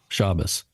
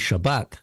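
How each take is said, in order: First: Ashkenazi pronunciation, stress on the first syllable. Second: Sephardi pronunciation, stress on the last syllable.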